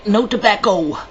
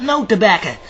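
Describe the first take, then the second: First: "tobacco" ending in a clear "oh"; careful "tobacco" with a full final vowel. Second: "tobacco" ending in a loose "-uh"; casual "tobacco" with a reduced last vowel; dialect tobacco. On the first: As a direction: say "tobacco" as "tuh-BACK-oh". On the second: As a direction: say "tobacco" as "tuh-BACK-uh". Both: Shown as a demonstration. Says the word two ways.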